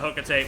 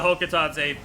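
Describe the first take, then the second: First: The name is said with three syllables. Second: The name is said with four syllables. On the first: "The other one flows off the tongue so much better" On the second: "it is Hokitate according to Palutena"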